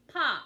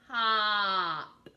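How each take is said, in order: First: Said in the usual way. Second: "Pop" with a long drawn-out vowel; stretched blend. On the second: Shown as a demonstration. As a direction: slowly blend "Pop", holding the middle. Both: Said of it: "I'm gonna sound out those words".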